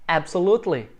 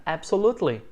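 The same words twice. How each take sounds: First: "Absolutely" hit on AB; stress on AB. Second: "Absolutely" stressed on AB. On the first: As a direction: punch the first syllable of "Absolutely". (tônica na primeira sílaba de "Absolutely") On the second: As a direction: lean on AB in "Absolutely". ("Absolutely" com tônica em AB) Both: Shown as a demonstration. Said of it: "Sílaba tônica é a primeira".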